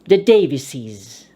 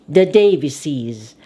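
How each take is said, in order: Both takes have the same delivery.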